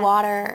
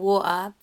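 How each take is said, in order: First: It is said with an American soft T. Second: It is said with a British dropped T. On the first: "they don't even say a T. It's like water" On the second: "Americans come at us for not saying our T's and going water"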